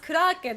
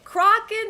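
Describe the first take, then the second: First: It is said with a Japanese pronunciation. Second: It is said with an English pronunciation.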